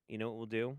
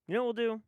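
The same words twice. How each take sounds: First: Said in the usual way. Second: Pitched way up, teasing; high, playful question. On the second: Pretend. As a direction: repeat the question in a raised, comic voice. Repeats question, playfully raised.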